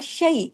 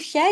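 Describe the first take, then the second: First: It is said with the Arabic soft 'ay' sound. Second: It is said with the Urdu-style vowel. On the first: The speaker calls it right. "शीन या जबर शई" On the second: The speaker calls it wrong. "इसको शय नहीं पढ़ेंगे उर्दू की तरह"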